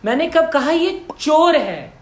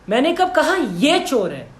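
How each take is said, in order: First: The stress is on चोर. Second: The stress is on ये.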